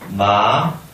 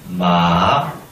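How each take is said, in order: First: It is said with the second tone. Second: It is said with the third tone. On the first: "이성" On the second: "삼성"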